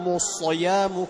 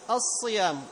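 First: The first sound is made very heavy and thick. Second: The first sound is made only lightly heavy. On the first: The speaker calls it wrong. "أنا ما أقول ... مبالغة" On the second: The speaker calls it right. "المكسور في أدنى مراتب التفخيم، لا أعطيه تفخيما زائدا"

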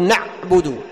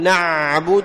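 First: The ayn consonant is cut off abruptly. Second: The ayn consonant is prolonged and flows long. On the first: "تقطع الصوت مثل الشدة" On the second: "ولا تجعل يعني الجريان طويل وتام مثل الرخو"

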